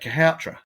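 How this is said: The name is clipped, with a syllable dropped. This is how many local people say it. The speaker calls it wrong. "a lot of the people around here say Kahoutra"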